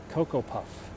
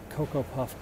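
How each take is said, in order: Both takes have the same delivery.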